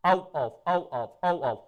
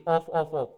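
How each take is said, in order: First: "of" said with a v sound, over and over; repeated drill of "of". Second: "off" said with a hard f, the common mistake; wrong "off". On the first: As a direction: drill the word "of" ending in v, several times. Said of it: "right pronunciation होती है of". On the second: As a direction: say "off" with an f ending, the wrong way. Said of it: "comes automatically". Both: Shown as a demonstration.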